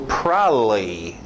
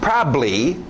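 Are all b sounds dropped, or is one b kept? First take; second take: all dropped; one kept. First: Both b sounds are dropped from the word. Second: One b sound is kept in the word. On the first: The speaker is being lazy with pronunciation. The speaker calls it wrong. "Pessoas preguiçosas, e tem gringo que faz isso" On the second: This is the most common way to say it. The speaker calls it right. "esse é o mais comum"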